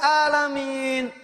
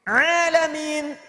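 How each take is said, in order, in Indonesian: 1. Kata ini dimulai dengan hamzah. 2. Kata ini dimulai dengan bunyi ain dari tenggorokan. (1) "kalau pakai hamzah" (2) "Semua alam"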